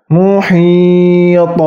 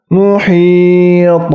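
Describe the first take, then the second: Both takes have the same delivery.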